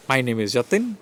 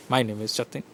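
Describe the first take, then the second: First: "Jatin" lifted at the end; question-like rise on "Jatin"; rising intonation. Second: "Jatin" dropped low and soft; low, soft statement ending down on "Jatin"; falling intonation. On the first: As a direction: let the pitch climb on "Jatin". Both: Shown as a demonstration.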